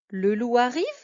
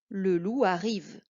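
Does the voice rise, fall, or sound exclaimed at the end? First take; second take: rises; falls. First: The voice rises at the end. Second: The voice falls at the end.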